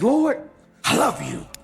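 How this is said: It is said with heavy, intense feeling.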